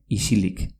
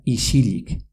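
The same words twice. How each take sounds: First: Said in the usual way. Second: "isilik" as ishilik. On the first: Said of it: "se pronuncian X y T X". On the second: Shown as a demonstration. Teacher shows the dialect form, S after I as sh. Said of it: "pero se pronuncia".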